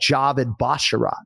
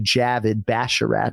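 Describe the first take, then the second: First: The name lacks the plain 'avid' and 'bash' sounds. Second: The name contains the plain 'avid' and 'bash' sounds. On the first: The speaker calls it wrong. "I would say like" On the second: The speaker calls it right. "it's actually"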